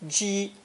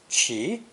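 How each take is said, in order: First: The syllable is said with a high level tone. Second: The syllable is said with a rising tone. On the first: "but also pronounced first tone" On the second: "usually pronounced second tone"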